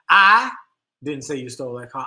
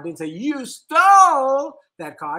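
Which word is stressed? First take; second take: I; stole. First: The stress is on "I". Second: The stress is on "stole".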